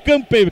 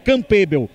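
First: The name is said with English-style sounds. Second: The name is said with Portuguese-style sounds. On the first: This is the proper form of an English name. The speaker calls it right. "é o Campbell, que é um nome inglês" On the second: This is how people at the club say it. The speaker calls it wrong. "O pessoal lá no clube não fala direito Campbell, fala Campbell"

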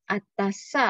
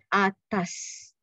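First: The word ends with an added a vowel. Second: The word ends on the final s sound. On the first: The speaker calls it wrong. "not atasa" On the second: The speaker calls it right. "So we call it di atas"

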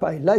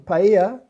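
First: The double L sounds like an L. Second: The double L sounds like a Y. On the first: The speaker calls it wrong. "not paella" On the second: The speaker calls it right. "in original paella"

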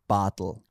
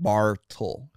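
First: The R sound is left out of the name. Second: The R sound is spoken in the name. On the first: The speaker calls it right. "I have an R in my name, but I don't pronounce it. I say Bartl" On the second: The speaker calls it wrong. "But it's not Bartl"

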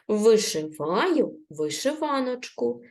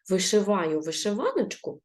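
First: The phrase is read at a moderate pace. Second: The phrase is read very quickly. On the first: "Читаємо ще раз трішечки швидше" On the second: "А тепер прочитаємо дуже швидко"

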